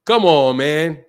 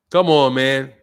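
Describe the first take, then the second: No difference in how they are said.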